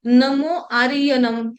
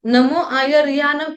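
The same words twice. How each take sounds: First: आर्यनम said with the य left out, not आयर्यानम; dropped syllable. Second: Said in the usual way. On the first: Shown as a demonstration. Teacher showing students a wrongly shortened recitation, आर्यनम with the य dropped. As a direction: swallow the य so आयर्यानम becomes आर्यनम. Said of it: "य को खा दिया". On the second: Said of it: "लेकिन कोई कोई क्या कर देते हैं".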